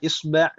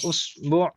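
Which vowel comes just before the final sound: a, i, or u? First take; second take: a; u. First: The vowel before the final sound is a. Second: The vowel before the final sound is u. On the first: "bisa dibaca dengan berbagai harokat" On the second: "bisa dibaca dengan berbagai harokat"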